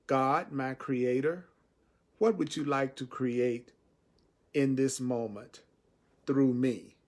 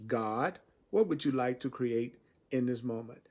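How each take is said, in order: First: Slow, unhurried prayer to God. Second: Said in the usual way. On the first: Shown as a demonstration. Teacher shows the prayer the way he likes to say it, slowly. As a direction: ask it slowly, like a real prayer. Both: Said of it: "See, I like to say it this way".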